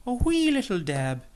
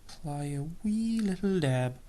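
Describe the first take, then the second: First: Bad Irish accent. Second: Said in the usual way. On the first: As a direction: lay on a cheesy Irish lilt for "wee". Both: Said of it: "in my worst Irish stereotype accent".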